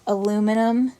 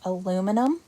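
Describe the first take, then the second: First: The word is said with four syllables, aluminum. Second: The same.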